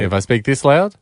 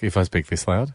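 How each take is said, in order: First: It is spoken loudly, at a high volume. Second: It is spoken softly, at a low volume. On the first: It goes over the agreed volume limit. The speaker calls it wrong. "too loud" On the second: It stays under the agreed volume limit. The speaker calls it right. "that's underneath"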